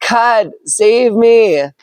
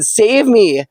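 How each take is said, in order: First: Very slow, drawn-out higher plea; desperate plea. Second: Higher, quick mild plea; nervous plea. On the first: Drowning man begs God one last time, slow and desperate. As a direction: stretch out every word in desperation. Water at his neck, pleads. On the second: Man on rooftop first asks God to save him, mildly nervous. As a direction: ask God for rescue, only lightly worried. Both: Acted.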